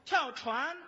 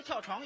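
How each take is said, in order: First: "跳船" with a clear front -an ending, louder; corrected 船. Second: "跳床" with a back -ang ending for 船; 船 sounding like 床. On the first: Shown as a demonstration. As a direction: say 船 firmly as chuan, not chuang. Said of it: "跳什么床啊". (大声纠正，咬准“跳船”) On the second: Acted. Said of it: "我听着你说跳床". (把“跳船”说成“跳床”)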